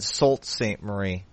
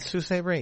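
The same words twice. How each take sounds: First: The name is said just as it is spelled. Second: The name is not said as it is spelled. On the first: The speaker calls it wrong. "You might have said Sault Ste. Marie. That's how it's spelled" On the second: The speaker calls it right.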